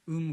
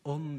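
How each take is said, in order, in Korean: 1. 이 모음은 닫힌 평순 'eu' 소리예요. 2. 이 모음은 열린 'eo' 소리예요. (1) "표준말을 쓰기 때문에 정상적인 사람입니다" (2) "음이 안 돼서 엄 이러면은"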